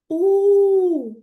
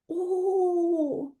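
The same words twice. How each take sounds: First: The vowel is said loudly. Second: The vowel is said quietly. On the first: The wolf howls. "Голосно-голосно" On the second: The wolf avoids scaring the bunny. "А потім тихо"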